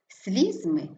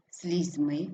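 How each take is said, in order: First: СЛІЗЬми, falling after stressed first syllable. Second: СлізьМИ, rising on stressed ending; stress on last syllable. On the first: Teacher showing double stress, stress on СЛІЗЬ. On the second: Teacher showing double stress, stress on МИ. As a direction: hit МИ in слізьми. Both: Shown as a demonstration. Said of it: "слова із подвійним наголосом".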